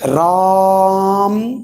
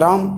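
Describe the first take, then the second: First: The vowel is stretched out very long. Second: The vowel is said short and normal. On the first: The speaker calls it right. "इस प्रकार से बोलेंगे। ... दीर्घ स्वर से भी ज्यादा समय लग रहा है।" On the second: The speaker calls it wrong. "ऐसा बोलेंगे? नहीं बोलेंगे।"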